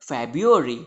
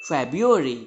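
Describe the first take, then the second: Both takes have the same delivery.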